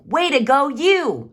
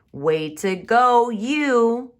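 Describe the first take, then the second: First: Much higher and louder praise; big excited mom cheer; strong feeling. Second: Loud, high, slow praise; big proud cheer; strong feeling. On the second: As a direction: cheer the child on. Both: Shown as a demonstration. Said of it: "She said it with a strong feeling".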